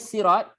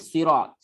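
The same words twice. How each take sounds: First: The word begins with a plain s sound. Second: The word begins with an emphatic s sound. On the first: This is the original form of the word. "asalnya sirat sin" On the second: This is the changed form of the word. "tapi dia dia tukar dengan sad"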